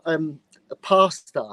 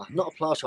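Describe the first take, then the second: First: "pastor" said slowly, no l; pastor not plaster. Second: "plaster" with a clear l after the p. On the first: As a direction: stress the word "pastor" plainly, no l sound. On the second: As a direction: say "plaster" with a crisp pl. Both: Shown as a demonstration.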